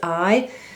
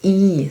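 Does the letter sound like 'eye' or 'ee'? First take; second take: eye; ee. First: The letter sounds like 'eye'. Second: The letter sounds like 'ee'. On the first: "You say it's I" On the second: "but we say it's E"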